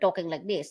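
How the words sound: It is said in a put-on voice.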